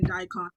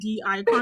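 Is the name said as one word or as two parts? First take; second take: one word; two parts. First: The name is run together as one word. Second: The letter D is said separately before icon. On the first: The speaker calls it wrong. "because I was saying Dicon" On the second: The speaker calls it right. "it's pronounced D icon"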